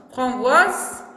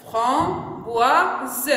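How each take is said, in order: First: Said in the usual way. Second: "Framboise" broken into fram, boi, se; syllable by syllable. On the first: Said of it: "Qu'est-ce que ça veut dire". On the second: Shown as a demonstration. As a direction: sound out "Framboise" with gaps, voicing the final e. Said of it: "on a combien de syllabes?". (« Framboise » découpé en trois syllabes, fram-boi-se)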